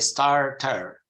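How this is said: The R after the vowel is pronounced. "they pronounce the rhotic R"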